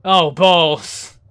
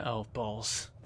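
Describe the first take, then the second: First: Louder, hammed-up oh balls; mock dismay. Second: Softer, lower muttered oh balls; under the breath; muttered dismay. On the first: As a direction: repeat it big and theatrical. Repeated loud in put-on voice. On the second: Real, not acted. Muttered reaction to a threat.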